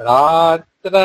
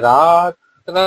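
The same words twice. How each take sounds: The two takes are said the same way.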